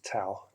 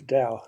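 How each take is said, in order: First: The word begins with a T sound. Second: The word begins with a D sound. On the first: "sometimes pronounced as Tao, T A O, especially in the West" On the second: "D A O"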